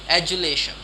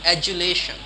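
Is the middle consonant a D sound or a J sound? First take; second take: J sound; J sound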